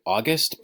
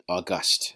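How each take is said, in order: First: "August" with the first syllable stressed, like the month. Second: "august" with the second syllable stressed, au-GUST. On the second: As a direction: hit the last syllable of "august". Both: Shown as a demonstration. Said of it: "where you put the emphasis".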